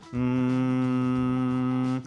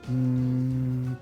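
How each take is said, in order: First: The hum is easy, resonant and buzzing. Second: The hum is airy with little buzz. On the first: The vocal folds close just enough. The speaker calls it right. "siento que mi voz fluye fácil y siento mucha sensación de vibración" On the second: The vocal folds do not close properly. The speaker calls it wrong. "una voz más aireada"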